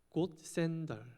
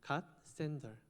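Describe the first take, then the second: First: It is said in a British accent. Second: It is said in an American accent. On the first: "영국식 발음으로" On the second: "미국식 발음으로는"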